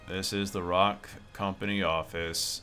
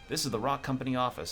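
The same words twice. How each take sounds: First: It is droned in a flat monotone. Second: It is said with some lively expression.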